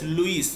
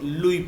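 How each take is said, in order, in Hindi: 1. नाम के अंत में s की आवाज़ सुनाई देती है। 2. नाम के अंत में s की कोई आवाज़ नहीं होती। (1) "L U I एस, लुइस" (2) "यस silent होता है लास्ट का, तो इसलिए हम लोग लुई पढ़ते हैं"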